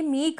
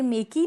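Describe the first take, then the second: First: Said in the usual way. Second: "मेक ही" said as two syllables, may-kee; final e sounded. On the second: Shown as a demonstration. Teacher shows students the wrong reading, "मेक ही" with a sounded final ee. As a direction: voice the silent e in "मेक ही" as a long ee. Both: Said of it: "ई तो sound ही नहीं कर रहा".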